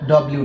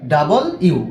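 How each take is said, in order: First: It is clipped into a short 'dublyu'. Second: It is said fully as 'double you'. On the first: The speaker calls it wrong. "কিন্তু এটা ডব্লিউ না" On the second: The speaker calls it right. "মানে দুইটা ইউ যেভাবে বলা হয় ডাবল ইউ"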